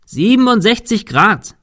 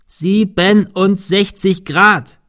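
First: High shout into the wind at normal pace; calling out. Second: High, slow, syllable-by-syllable shout; calling out slowly. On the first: Man giving his friend the dish angle, calling against the wind. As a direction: shout the figure across a roof. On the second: Man repeating the angle for his shrugging friend, calling slowly. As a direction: shout it very slowly so it gets through. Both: A narrator's reading. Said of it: "rief Thomas dem Wind entgegen".

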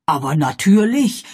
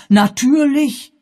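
First: Said in the usual way. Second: Natürlich! viel höher, langsam gedehnt ausgerufen; natürlich! hoch und gedehnt, plötzlich begreifend; erregter Ausruf. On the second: Acted. (Pennyfather begreift, aufgeregter Ausruf) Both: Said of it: "rief er nun seinerseits".

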